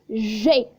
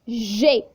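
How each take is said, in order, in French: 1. Le nom de la lettre se termine par une voyelle 'ay'. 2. Le nom de la lettre se termine par une voyelle 'ay'.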